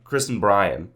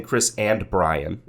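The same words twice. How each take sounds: First: "and" shrunk to a bare n; reduced "and". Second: "and" with its whole vowel and final d; full "and". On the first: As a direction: run "and" into Chris as a quick 'n. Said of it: "I'm not saying Chris and Brian". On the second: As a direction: pronounce "and" fully, as a separate word. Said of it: "because we don't say and". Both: Shown as a demonstration.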